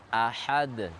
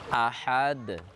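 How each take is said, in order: No difference in how they are said.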